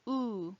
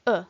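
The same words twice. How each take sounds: First: "U" as a held oo vowel; long U. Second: "U" as a very brief, cut-off Latin vowel; short U. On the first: Teacher demonstrating the long vowel, "U" held as oo. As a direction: draw "U" out softly as oo. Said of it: "Long U". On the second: Teacher demonstrating the short vowel, "U" said very briefly. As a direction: say "U" short, barely held. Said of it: "Short U". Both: Shown as a demonstration.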